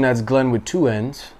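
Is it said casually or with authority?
casually. It is said casually and plainly.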